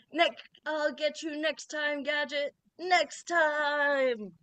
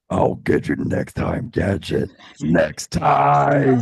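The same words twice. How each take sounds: First: Higher, louder cartoon villain threat; Doctor Claw. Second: Very low, soft raspy villain growl; Doctor Claw. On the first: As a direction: shout it like a scheming cartoon villain. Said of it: "A phrase that has remained". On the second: Retold or imitated. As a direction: growl it like a cartoon supervillain. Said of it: "that raspy voice out. You gotta be like this".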